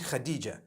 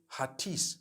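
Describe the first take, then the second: First: It starts with a throaty kh and ends in ja. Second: It starts with a plain h and ends in s. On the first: The speaker calls it right. "No, it's actually Khadija" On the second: The speaker calls it wrong. "I would say Hatis for that"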